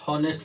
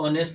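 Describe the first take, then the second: First: The word begins with an audible h sound. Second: The word begins directly with a vowel sound. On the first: The speaker calls it wrong. "ना कि हॉनेस्ट पढ़ते हैं" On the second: The speaker calls it right. "इसको ऑनेस्ट पढ़ते हैं"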